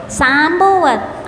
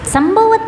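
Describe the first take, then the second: First: सांभवत slowly, with a long drawn "saa" on the first syllable; long aa corrected. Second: संभवत with a short first a, sam-bha-vat; संभवत said with short "sam", the mistake being corrected; wrong short vowel. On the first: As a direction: stretch the सां into a clear long aa, very slow. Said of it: "आ की मात्रा है स में". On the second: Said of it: "संभवत नहीं बोलना". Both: Shown as a demonstration.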